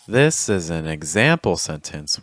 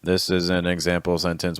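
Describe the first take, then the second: First: The pitch moves up and down a lot. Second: The pitch stays flat with little movement. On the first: The speaker calls it right. "with much more pitch" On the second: The speaker calls it wrong. "without much pitch"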